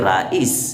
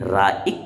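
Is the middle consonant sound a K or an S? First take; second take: S; K. First: The word ends with an S sound. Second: The word ends with a K sound. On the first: The speaker calls it right. "बल्कि राइस" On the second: The speaker calls it wrong. "राइक नहीं"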